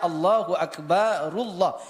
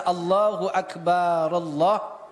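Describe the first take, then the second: First: Akbar ends in 'u', linked into Allah. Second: Akbar ends without a vowel before Allah. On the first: The predicate keeps its nominative ending when joined. The speaker calls it right. "Jadi dibaca Allahu Akbarullah kalau ingin wasal" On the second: The case ending of the predicate is dropped. The speaker calls it wrong. "itu sudah menyalahi harakat"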